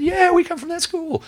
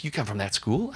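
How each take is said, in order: First: "we" said much higher and louder, slowly; stress on we. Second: Said in the usual way. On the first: Retold or imitated. Visitor to deacon, leaning hard on "we". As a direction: lean hard on "we" and draw it out. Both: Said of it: "What do you mean, we?".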